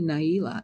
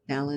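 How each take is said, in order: First: The first syllable sounds like 'nigh'. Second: The first syllable sounds like 'nah'. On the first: This is how the person herself says the name. The speaker calls it right. "It's actually Naila" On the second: This is how other people say the name. The speaker calls it wrong. "people called her Nala"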